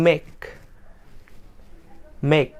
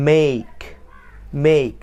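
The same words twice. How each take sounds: First: মেক as short "mek"; wrong "make". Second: মেক drawn into "meik"; correct "make". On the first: Teacher repeating the usual mistake, wrong "make". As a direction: say মেক with an unglided e. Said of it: "আমরা বলি". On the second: Teacher modelling for learners to hear, correct "make". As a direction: glide the vowel of মেক from e to i. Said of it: "correct উচ্চারণটা আসবে". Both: Shown as a demonstration.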